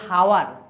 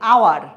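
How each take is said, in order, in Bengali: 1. শব্দটি একটা স্পষ্ট h ধ্বনি দিয়ে শুরু হয়। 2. শব্দটি স্বরধ্বনি দিয়ে শুরু হয়, এখানে h নেই। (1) "আমরা কিন্তু বলছি না যে হাওয়ার" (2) "এইচ উচ্চারিত হচ্ছে না"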